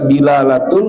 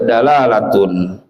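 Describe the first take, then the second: First: The first vowel is an 'i' sound. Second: The first vowel is an 'a' sound. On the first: "boleh dibaca dilalatun" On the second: "boleh dibaca dalalatun"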